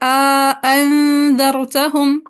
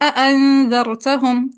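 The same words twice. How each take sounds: First: Both hamzas are fully pronounced, with an alif inserted. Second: Both hamzas are fully pronounced, with no alif inserted. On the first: "तहक़ीक़ माल इदखाल" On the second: "तहक़ीक़ बिला इदखाल"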